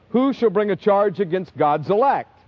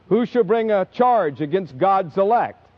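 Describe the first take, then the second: Both takes have the same delivery.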